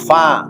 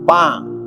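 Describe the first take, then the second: First: The word begins with an f sound. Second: The word begins with a p sound.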